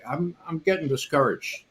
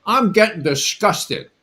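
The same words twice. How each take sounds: First: A hint of a deflated young student; imitating discouraged complaint. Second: Higher, louder indignant protest; retold angry reply. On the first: Student complaining to his teacher, mildly discouraged. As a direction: let it sag, a little sorry for yourself. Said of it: "I thought you said discouraged". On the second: Student fires back at the teacher, angry. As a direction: spit the word disgusted back at him. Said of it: "And I got pissed off".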